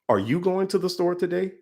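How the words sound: The word 'you' carries the strongest stress. "going down the line of each word"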